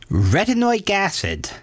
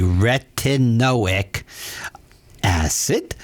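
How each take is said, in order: First: It is said at a normal, quick pace. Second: It is said slowly and deliberately.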